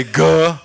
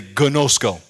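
First: Gnosko broken into three drawn-out beats, guh, nosk, go; syllable by syllable. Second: Said in the usual way. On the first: Shown as a demonstration. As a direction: sound out gnosko slowly with long pauses between syllables. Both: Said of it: "Say gnosko".

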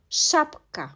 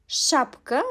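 First: "Şapka" higher, split as Şap-ka; syllable-by-syllable pronunciation. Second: Said in the usual way. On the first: Shown as a demonstration. Teacher showing the letter Ş in "Şapka", in separated syllables. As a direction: put a small gap inside "Şapka". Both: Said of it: "Ş harfi".

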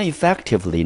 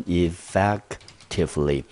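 First: Said in the usual way. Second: "effectively" sounded out slowly, syllable by syllable; careful pronunciation demo. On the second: Shown as a demonstration. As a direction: model "effectively" slowly for learners. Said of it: "念成". (慢速、逐音节示范念effectively)

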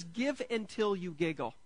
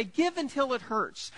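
First: "Give until you giggle" settled back in the usual voice, leaning on "Give"; the happy right version, plain and warm; cheerful correction. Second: Higher, slow, heavy-handed take on "Give until it hurts"; a mock sombre recital of the slogan; grim mock slogan. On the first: Shown as a demonstration. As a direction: deliver the corrected slogan with a knowing grin. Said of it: "The Bible says". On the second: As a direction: lay it on like a dour old saying. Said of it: "Some people say".

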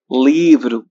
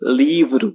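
First: Livro at normal pitch, falling; plain repeat. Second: Livro said much higher with a tapped r; high word demo. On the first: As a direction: say livro back in your own voice. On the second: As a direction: lift livro high and tap the r. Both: Shown as a demonstration. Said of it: "চলুন শুরু করি".

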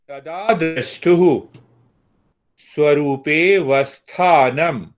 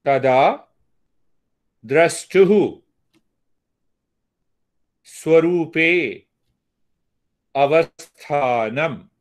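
First: "swarupe vasthanam" run together, dropping the a of "avasthanam"; joined words. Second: "swarupe" and "Avasthanam" said apart, with pauses; separate words. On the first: Teacher joins the last two words for students, slow. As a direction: slur "swarupe" into "vasthanam" slowly. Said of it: "swarupe and avasthanam you join together". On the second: Teacher recites word by word for the class, unhurried. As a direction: give each word its own slow beat. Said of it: "This is one way of saying". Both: Shown as a demonstration.

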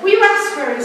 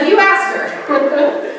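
First: Put-on high-pitched, hesitant go at a Russian accent; attempted Russian accent. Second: Said in the usual way. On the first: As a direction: try a Russian client's accent, pitched well up. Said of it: "I can't do a Russian accent". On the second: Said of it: "so I won't even try".

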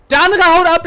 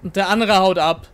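First: Higher, louder indignant repeat. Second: Said in the usual way. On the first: Real, not acted. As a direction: stress "andere" in outrage. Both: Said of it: "repeats it indignantly".

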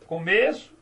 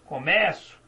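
First: Começo with closed ê, comêço; noun começo. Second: Começo with open é, comécu; verb começo. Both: Shown as a demonstration. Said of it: "Veja, só mudou a pronúncia".

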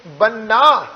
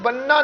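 First: ਬੰਨਾ leaned on, with a half h after the n; pressed ਬੰਨਾ. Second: ਬੰਨਾ with no half h after the n; unpressed ਬੰਨਾ. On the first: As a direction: press the nn of ਬੰਨਾ into a breath of h, falling. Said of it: "ਇਹਨੂੰ ਥੋੜ੍ਹਾ ਜਿਹਾ ਦਬਾ ਦੇ ਕੇ". (ਬੰਨਾ ਥੋੜ੍ਹਾ ਦਬਾ ਕੇ, ਅੱਧੇ ਹਾਹੇ ਨਾਲ) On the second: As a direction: say ਬੰਨਾ lightly with a simple n. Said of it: "ਇਹਨੂੰ ਬੰਨਾ ਨਹੀਂ ਪੜ੍ਹਨਾ". (ਬੰਨਾ ਬਿਨਾਂ ਅੱਧੇ ਹਾਹੇ ਤੋਂ) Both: Shown as a demonstration.

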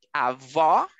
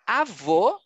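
First: Avó with open final o; avó ending in open o. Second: Avô with closed final o; avô ending in closed o. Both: Shown as a demonstration.

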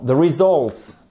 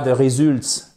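First: Slow "results" as ri-ZULTS; corrected pronunciation. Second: "results" with a French U, "ré-zülts"; French-style mispronunciation. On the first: Teacher corrects the mistake for learners, careful pronunciation. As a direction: stress the open second vowel of "results". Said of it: "non, the results". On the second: Teacher shows learners the mistake to avoid, mispronounced. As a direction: say "results" wrongly, like French "résultat". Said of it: "et pas the results". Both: Shown as a demonstration.

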